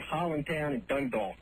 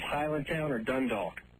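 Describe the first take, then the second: First: The place name is said in local Baltimore accent. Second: The place name is said in standard pronunciation.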